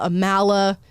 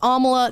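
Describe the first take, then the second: First: The first syllable does not sound like 'om'. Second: The first syllable sounds like 'om' in omelet. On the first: The speaker calls it wrong. "every single person calls me Amala" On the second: The speaker calls it right. "Think of the word omelet, and you'll be able to pronounce my name"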